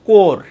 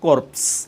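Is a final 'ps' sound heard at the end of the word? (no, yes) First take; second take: no; yes. First: The word ends without any 'ps' sound. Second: The word ends with an audible 'ps' sound. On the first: The speaker calls it right. "পিএসটা silent থেকে যাবে" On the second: The speaker calls it wrong. "হওয়া উচিত ছিল কোর্পস"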